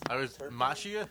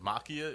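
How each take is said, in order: First: The surname has an anglicized, non-Italian pronunciation. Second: The surname has an Italian pronunciation. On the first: This is how the family pronounced it at home. "the way I was brought up pronouncing it" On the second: This follows the original language of the name. "the correct Italian way"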